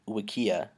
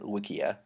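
First: The word is said to rhyme with IKEA. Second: The word is said not rhyming with IKEA. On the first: "you pronounced it Wikia, like, rhyming with IKEA" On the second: "I pronounce it Wikia"

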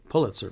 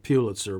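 First: The first vowel is a short U sound. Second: The first vowel is a long U sound. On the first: This is how most media people say it. "most magazine and radio newspaper people say Pulitzer" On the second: This is how the family says it. "the family pronounced it Pulitzer with a long U"

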